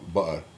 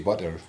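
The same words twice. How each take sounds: First: The middle consonant is a glottal stop. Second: The middle consonant is a clear t sound. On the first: "So they would do a glottal stop" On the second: "so I would say butter, tea"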